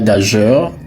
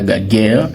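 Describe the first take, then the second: First: It ends with a soft 'jeur' sound. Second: It ends with a hard 'guerre' sound. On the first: "Ce n'est pas gageur" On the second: "ce n'est pas gaguerre"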